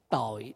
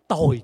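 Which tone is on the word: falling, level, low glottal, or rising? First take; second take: low glottal; falling. First: The word is said with a low glottal tone. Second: The word is said with a falling tone. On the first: It means sin. "Mà để dấu nặng thì sao?" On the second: It means wretched. "Mà để dấu huyền thì nó trở thành gì?"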